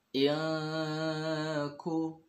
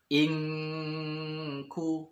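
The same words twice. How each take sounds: First: The nasal is hidden and only approaches ng. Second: The nasal is pronounced as a full, clear ng. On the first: The speaker calls it right. "terdengar suara mendekati eng, tapi bukan eng asli" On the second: The speaker calls it wrong.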